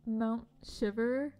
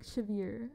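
First: "Shiver" like the everyday word; habitual mispronunciation. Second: "Shiver" as "shiv-EER"; corrected pronunciation. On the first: Admitting their own name for a place, plain "Shiver". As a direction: say "Shiver" as SHIV-er, slowly. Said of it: "I always wanna call it". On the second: Correcting their own place name, "Shiver" ending in "eer". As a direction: lengthen the end of "Shiver" to "-eer". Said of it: "but it's, like, Shiver". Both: Shown as a demonstration.

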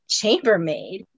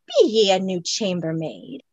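First: Said in the usual way. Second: Scots Highlander. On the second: Acted. Highlander questions her.

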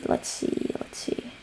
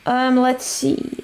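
First: Under the breath, whispering; whispered. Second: Said in the usual way. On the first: Real, not acted. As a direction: trail off into a whisper. Thinking aloud while gaming.

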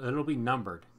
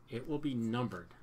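First: Said in the usual way. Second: "will" spelled out and hit, not "it'll"; stress on will. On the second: Real, not acted. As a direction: lean on "will" in "It will be numbered".

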